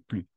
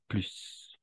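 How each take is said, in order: First: The final S sound is silent. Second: The final S sound is pronounced. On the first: The next word starts with a consonant. "Sans, sans le S" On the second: The next word starts with a vowel. "si le mot s- qui suit commence par une voyelle ou un âge muet"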